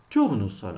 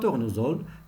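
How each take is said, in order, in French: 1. La consonne du milieu est un s sourd. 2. La consonne du milieu est un z sonore. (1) "mais tournesol" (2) "on ne dit pas tournesol"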